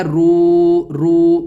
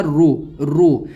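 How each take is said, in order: First: Louder "رو" with the vowel held too long; teacher demonstrates "رو" read wrongly, held long; wrong stretched reading. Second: Teacher models the right short "رو"; correct short reading. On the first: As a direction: overstretch "رو" to show the mistake. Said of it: "اس طرح نہیں پڑھا جائے گا". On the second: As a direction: say "رو" crisply without holding the vowel. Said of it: "بلکہ ایسا پڑھا جائے گا". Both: Shown as a demonstration.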